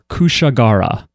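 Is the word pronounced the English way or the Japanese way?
English. It is pronounced the English way.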